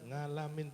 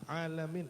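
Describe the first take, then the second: First: The word starts with an added ng sound. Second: The word starts with a plain vowel. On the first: "tetap ngalamin" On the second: "saya bilang alamin"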